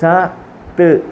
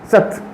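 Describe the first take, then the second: First: The sounds are said apart with a break. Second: The sounds are said together without a break. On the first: The speaker calls it wrong. "എങ്ങനെ പറയത്തില്ല" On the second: The speaker calls it right. "ഒരു പദം ചേർത്ത് വായിക്കുമ്പോൾ സ്പീഡിൽ വായിക്കുക"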